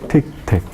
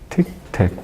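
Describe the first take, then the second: Both takes have the same delivery.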